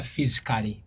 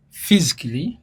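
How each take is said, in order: First: "physically" as "fiz-i-ka-lee"; four full syllables in "physically"; A sounded. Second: "physically" as "fiz-klee"; "physically" with K straight into L; silent A. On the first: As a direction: lower pitch, pronounce the A in "physically". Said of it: "n'otagamba physically". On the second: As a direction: cut the A out of "physically", tune rising. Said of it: "because the A is silent". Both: Shown as a demonstration.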